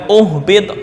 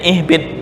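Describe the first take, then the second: First: The word begins with a 'u' vowel. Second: The word begins with an 'i' vowel. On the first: The speaker calls it wrong. "bukan uhbit, enggak" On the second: The speaker calls it right. "bacanya ihbit, mengikuti huruf yang ketiga"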